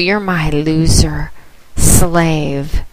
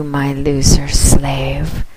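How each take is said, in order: First: Said in the usual way. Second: "loser" stressed, slow, rising; drawn-out taunt. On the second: Real, not acted. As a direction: lean on "loser" and stretch the phrase slowly. Taunting her slave.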